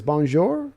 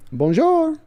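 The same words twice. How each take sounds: First: Said in the usual way. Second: Bonjour sung out much higher in a mock French lilt; mock French greeting. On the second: Shown as a demonstration. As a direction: trill Bonjour high like a playful Frenchman.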